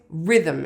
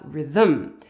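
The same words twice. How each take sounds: First: The stress is on the first syllable. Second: The stress is on the second syllable. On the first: The speaker calls it right. "the word rhythm is always rhythm" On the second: The speaker calls it wrong. "it is never rhythm"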